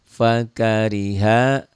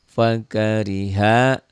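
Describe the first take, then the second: The two takes are said the same way.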